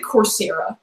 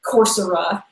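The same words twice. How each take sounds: First: "Coursera" stressed on the middle, cor-SAIR-uh. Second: "Coursera" as COR-sur-uh, middle vowel reduced; unstressed "ser" in "Coursera", like sir. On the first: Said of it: "I pronounce it Coursera". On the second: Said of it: "It might be Coursera". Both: Shown as a demonstration.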